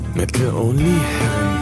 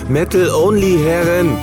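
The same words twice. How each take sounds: First: It is said at a quieter volume. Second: It is said at a louder volume.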